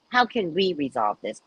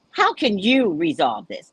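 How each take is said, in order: First: "we" picked out as the contrast; stress on we. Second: "you" picked out, slow and pointed; stress on you. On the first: Reader correcting the client's wording, stress on "we". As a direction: lean on "we" in the question. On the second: Client putting it all on the reader, stress on "you". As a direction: lean on "you" in a slow question. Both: Retold or imitated. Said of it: "Not we".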